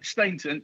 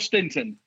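First: The first vowel sounds like 'ay' in 'day'. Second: The first vowel sounds like the short 'i' in 'sit'. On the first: This is the name as its owner says it. The speaker calls it right. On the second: Someone else got the name wrong. The speaker calls it wrong.

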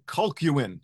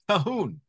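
First: The name is said with a 'kw' sound inside. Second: The name is said with no 'kw' sound inside. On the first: The speaker calls it wrong. "I called him John Colquhoun, in my own mind anyway ... I was dead wrong" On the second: The speaker calls it right. "it's really more accurately Calhoun ... the Q-U is silent"

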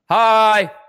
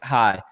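First: The word is said loudly, with the same tone. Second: The word is said at normal, quiet volume. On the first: "this is Damone when he's yelling" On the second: "this is Damone normal"

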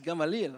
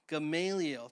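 First: The name is said with an old-country pronunciation. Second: The name is said with its standard pronunciation. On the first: The speaker calls it wrong. "I kind of go back to the old country... It's not correct" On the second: The speaker calls it right. "the proper pronunciation is Gamaliel"

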